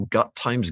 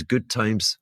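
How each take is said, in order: First: "Gut" read with a short u like gut, not good; misread typo. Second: Said in the usual way. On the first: Shown as a demonstration. Host reading a typo aloud off the page, "Gut" like gut. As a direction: say "Gut" exactly as the typo reads. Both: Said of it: "is that a typo?".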